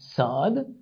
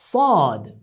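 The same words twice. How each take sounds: First: The s is a plain English s. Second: The s is heavy and emphatic, said with strong emphasis. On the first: "Instead of saying sad" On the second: "you emphasize it stronger. ... as if you have put something in your mouth"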